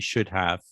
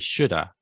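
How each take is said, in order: First: Both words are said fully and slowly. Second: Have is reduced to a short uh sound. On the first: "because we're speaking slowly here and we say you should have" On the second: "in fast speech, ... some people would say shoulda"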